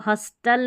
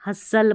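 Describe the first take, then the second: First: हस्टल with the T sounded; wrong pronunciation. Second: हसल with a silent T; correct pronunciation. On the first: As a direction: say हस्टल with a clear T after S. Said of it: "अब इसको हस्टल नहीं". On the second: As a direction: say हसल, no T after S. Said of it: "हसल पढ़ना है". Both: Shown as a demonstration.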